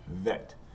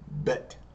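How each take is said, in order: First: The word begins with a V sound. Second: The word begins with a B sound. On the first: The letter has no dot in the middle. "it's going to be pronounced with the V sound" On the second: The letter has a dot in the middle. "it's going to be pronounced with the B sound"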